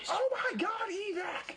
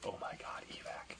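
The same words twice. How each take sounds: First: It is said loudly and excitedly. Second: It is said quietly and calmly.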